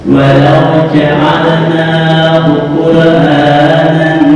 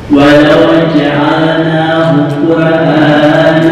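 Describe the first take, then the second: The two takes are said the same way.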